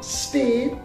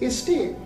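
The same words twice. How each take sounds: First: The opening consonants are said together as a cluster. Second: The opening consonants are split apart, not clustered. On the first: The speaker calls it right. "Instead of state" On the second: The speaker calls it wrong. "a person cannot pronounce consonant cluster"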